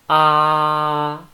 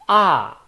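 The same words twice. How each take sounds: First: The pitch stays level throughout. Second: The pitch falls from high to low. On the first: "it's flat" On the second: "from up to down"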